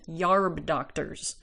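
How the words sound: Herb is said as yarb, Southern Appalachian style.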